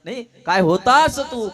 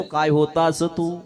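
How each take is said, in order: First: Louder, emphatic marveling with stress on होता; loud, delighted father exclaiming; louder exclamation. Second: Slow, drawn-out marveling; slow, amazed father praising the son; slow wondering. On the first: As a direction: push होता out with force. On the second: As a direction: stretch each word out in admiration. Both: Shown as a demonstration. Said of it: "आहे की नाही?".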